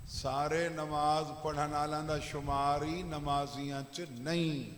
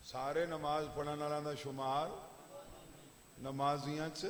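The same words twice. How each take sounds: First: सारे नमाज पढ़न वालों drawn out, falling on नहीं; emphatic statement. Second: Softer and lower, शुमार rising and left open; questioning prompt. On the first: Preacher telling listeners not all are counted, falling firmly on नहीं. States point, then asks it back. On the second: Preacher prompting listeners to complete the sentence, शुमार raised like a question. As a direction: lift शुमार and leave नमाजियां च hanging for an answer. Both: Real, not acted.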